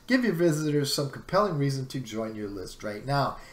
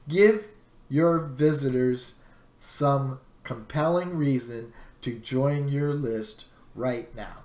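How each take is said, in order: First: It is said at normal speaking speed. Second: It is said very slowly, word by word.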